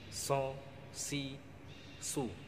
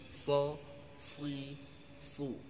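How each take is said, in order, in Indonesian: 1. Bunyi s ringan, lidah di belakang rendah. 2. Bunyi s berat, lidah di belakang naik. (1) "Itu karena huruf sin yang kita baca" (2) "Harusnya atau tepatnya"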